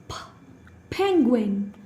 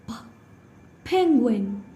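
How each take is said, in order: The two takes are said the same way.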